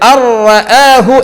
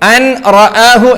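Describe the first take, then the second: First: The n merges into a doubled r sound. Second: The n sound is pronounced before the r. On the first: "അർ റആഹു എന്നും വായിക്കണം" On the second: "അൻ റആഹു എന്നുള്ളത്"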